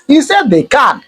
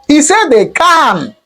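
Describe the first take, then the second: First: Said in the usual way. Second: "can" high and stretched long; slow it down and stretch "can" in disbelief; drawn-out emphasis. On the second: Real, not acted. Commentator repeating a guest's shocking claim, drawn-out emphasis.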